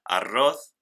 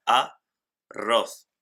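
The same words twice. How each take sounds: First: Said in the usual way. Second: "a, roz" with a pause after a; split into syllables. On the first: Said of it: "O la palabra arroz". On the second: Shown as a demonstration. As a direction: hold "a", then "roz" with a rolled double R. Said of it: "necesitamos las dos R's juntas". ("a, roz" separado, con la doble erre junta)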